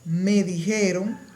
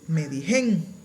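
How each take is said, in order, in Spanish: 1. El verbo se pronuncia completo, en tres sílabas. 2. El verbo se contrae a dos sílabas.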